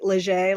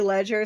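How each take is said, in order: First: The name is pronounced the French way. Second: The name is pronounced the English way. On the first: "like it's French" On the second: "Some people say ledger"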